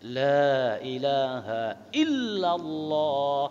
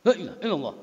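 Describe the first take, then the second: First: It is said slowly and relaxed. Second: It is said quickly and hurried. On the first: The speaker calls it right. "pelan amat sih. Udah bagus santai" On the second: The speaker calls it wrong. "tiba-tiba cepat"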